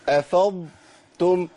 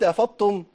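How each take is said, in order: First: The ḍ stays soft and distinct before t. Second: The ḍ is fully merged into the t. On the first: The speaker calls it right. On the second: The speaker calls it wrong.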